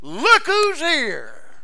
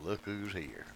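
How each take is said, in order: First: Much higher, louder, slow and ringing; triumphant proclamation. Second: A low, quiet, stern rebuke; stern mother. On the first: Acted. Preacher proclaiming Jesus to the church, triumphant. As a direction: ring it out in triumph. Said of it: "climax repeat of the phrase". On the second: Retold or imitated. Mary finding her lost son in the temple, quietly stern. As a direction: scold the boy softly but firmly. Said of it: "No doubt she said it rather sternly".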